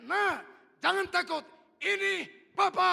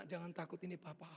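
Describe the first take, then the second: First: High, full-voiced yell, slow at the end; father's shout. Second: Compassionate reassurance. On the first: Father shouts to his child in the ditch, very loud. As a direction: shout reassurance across a distance. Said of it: "Saya teriak". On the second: Retold or imitated. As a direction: soothe the frightened child gently. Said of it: "Rasa iba melingkupi saya".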